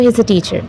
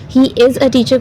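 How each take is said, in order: First: The first two words are joined into one contraction. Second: The first two words are said separately in full.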